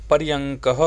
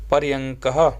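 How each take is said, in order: First: पर्यंकः repeated firmly, settling down; repeated model word. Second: पर्यंकः said clearly, ending on a rise; slow and careful पर्यंकः with a lifted end; model pronunciation. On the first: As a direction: say पर्यंकः again, closing it off. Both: Shown as a demonstration. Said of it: "पलंग को संस्कृत में कहेंगे".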